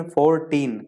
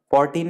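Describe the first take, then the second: First: Put-on फोर्टीन in two separate syllables, for, then teen; फोर्टीन broken into two distinct beats; split into syllables. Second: Said in the usual way. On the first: Shown as a demonstration. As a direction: pause in the middle of फोर्टीन. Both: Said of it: "अलग-अलग लेना पड़ता है".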